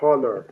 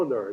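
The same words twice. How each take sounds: First: The word begins with an audible h sound. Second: The word begins directly with the vowel sound. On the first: The speaker calls it wrong. "Que não é honor" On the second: The speaker calls it right. "é"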